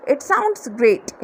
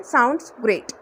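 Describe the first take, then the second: First: "sounds great" stretched very slowly; slow demo. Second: Said in the usual way. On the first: Shown as a demonstration. Teacher models the reply to a friend's plan, very slow. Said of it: "तो आप बोलोगे". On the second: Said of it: "तो आप बोलते हैं".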